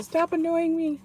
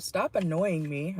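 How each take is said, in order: First: Irritated brush-off. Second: Said in the usual way. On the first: Retold or imitated. Someone tells the listener off, high irritated brush-off. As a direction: act someone fed up with you. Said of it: "Someone could be telling you". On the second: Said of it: "We have".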